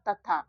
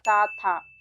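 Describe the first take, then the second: First: The first syllable has a short dental 'ta' sound. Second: The first syllable has a long dental 'taa' sound. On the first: The speaker calls it right. "इसको केवल त पढ़ेंगे, इसमें अ की मात्रा नहीं लगाएंगे" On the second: The speaker calls it wrong. "ए से य की मात्रा लगा देंगे तो ये हो जाएगा ता"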